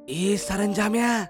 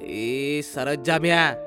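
First: It is said in a low, quiet voice. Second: It is said with the voice slightly raised. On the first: "कमी आवाजात बोलतो" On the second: "हलकासा आवाज चढवत"

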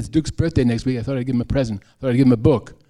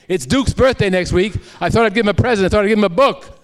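First: It is said at a normal volume. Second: It is yelled at a high volume.

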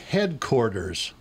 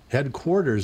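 First: The middle syllable sounds like 'cord'. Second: The middle syllable sounds like 'quart'. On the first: The speaker calls it wrong. "It's not headquarters. That's not a word" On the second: The speaker calls it right. "Headquarters is fine"

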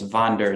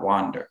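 First: The word begins with a v sound. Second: The word begins with a w sound. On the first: This is the German way to say it. The speaker calls it right. "in Germany it's Wander" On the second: This is the English way to say it. The speaker calls it wrong. "not Wander"

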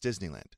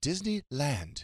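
First: The stress is on the first syllable. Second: The stress is on the last syllable. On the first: The speaker calls it right. "It's Disneyland" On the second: The speaker calls it wrong. "Not Disneyland"

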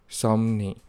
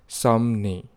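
First: The middle consonants are M and N. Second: The middle consonants are M and N.

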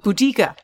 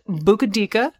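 First: The name is said with three syllables. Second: The name is said with four syllables. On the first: The speaker calls it right. "It's Budica" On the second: The speaker calls it wrong. "not Bukadika"

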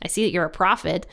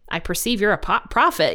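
First: It is said in a sarcastic tone. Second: It is said in a sincere, amazed tone.

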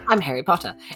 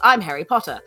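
First: It is said calmly, as quiet accent practice. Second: It is yelled loudly, in a frightened way. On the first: "trying out to see if I could do British accents" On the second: "I just yelled"

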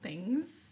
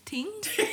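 First: The word begins with a 'th' sound. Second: The word begins with a plain 't' sound.

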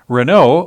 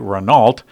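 First: The name is said without an American accent. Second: The name is said with an American accent.

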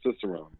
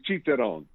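First: It is pronounced with American English sounds. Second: It is pronounced with Italian sounds. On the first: "we use the English pronunciation" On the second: "it's Italian word, ... otherwise, it would be"

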